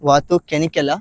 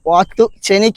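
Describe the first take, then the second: First: The second word begins with a k sound. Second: The second word begins with a ch sound. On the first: The speaker calls it wrong. "അല്ലാതെ വാത്തു കെനിക്കല്ല" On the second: The speaker calls it right. "വാത്തു ചെനിക് എന്നാണ് ഇതിൻ്റെ പേര്"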